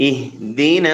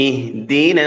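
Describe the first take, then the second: No difference in how they are said.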